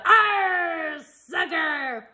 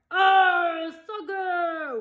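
First: High growling pirate cry; pirate yell. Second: High crew echo; crew yell. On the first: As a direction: yell it mid-kick. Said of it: "kicked the ball and yelled". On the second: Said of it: "the crew yelled". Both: A narrator's reading.

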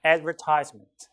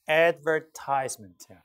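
First: Advertisement as "ad-VER-tis-ment"; British pronunciation. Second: Advertisement with a long "eye" in TISE; American pronunciation. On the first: Teacher contrasting for students, British advertisement stressed on VER. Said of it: "근데 영국식으로는". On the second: Teacher showing students American English, advertisement with "tise" as "tize". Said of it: "미국식 영어로는". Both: Shown as a demonstration.

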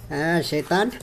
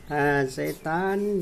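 First: Said in the usual way. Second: Slow, stretched teasing; very slow, lingering over Shaitaan; drawn out. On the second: Real, not acted.

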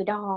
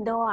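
First: Said in the usual way. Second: Door said "doa", ending in an open a; Japanese-style English. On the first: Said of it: "ก็คือ door ประตู". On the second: Shown as a demonstration. Teacher reviews vocabulary with learners, Japanese-style pronunciation. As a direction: say door as two katakana sounds, do-a. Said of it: "ภาษาอังกฤษแบบญี่ปุ่น".

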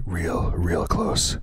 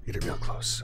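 First: Louder, pushed voice at the mic; loud mic test. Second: Breathy whisper right at the mic; whispered mic test. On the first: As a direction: say it loud to hit the meter. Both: Shown as a demonstration. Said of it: "Let me get it really close".

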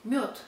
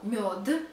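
First: Мёд as "myot", final t; devoiced ending. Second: Мёд with a released final d, "myo-duh"; spelled voiced ending. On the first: Teacher showing how it is read, мёд as "myot". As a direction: end мёд on a crisp t. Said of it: "but we read". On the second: Teacher showing spelling, мёд ending in hard voiced d. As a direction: sound out the last letter of мёд as voiced d. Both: Shown as a demonstration.

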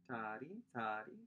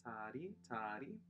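The two takes are said the same way.

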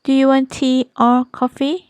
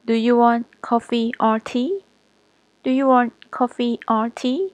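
First: Higher and louder, "you" stressed, rising at the end; lifted choice question. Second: "want" stressed, rising on "tea"; choice question tune. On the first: Teacher contrasting the tune of a choice question. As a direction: lift the whole question and rise at the end. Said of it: "teacher repeats with rise". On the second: Teacher showing the other order of a choice question. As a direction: rise through the choice with weight on "want". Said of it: "หรือ". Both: Shown as a demonstration.

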